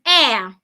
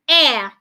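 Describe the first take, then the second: No difference in how they are said.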